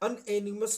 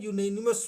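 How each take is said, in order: First: The word begins with a plain 'uh' vowel. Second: The word begins with a 'yoo' sound. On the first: The speaker calls it wrong. "अनएनिमस नहीं होता है" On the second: The speaker calls it right. "यूनेनिमस होता है। तो या से शुरू होती है"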